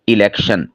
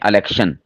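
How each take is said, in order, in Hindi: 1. शब्द 'i' स्वर से शुरू होता है। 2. शब्द 'a' स्वर से शुरू होता है। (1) "सही क्या है?" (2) "हमज़ा के ऊपर ज़बर पढ़ते हैं, ये गलत है"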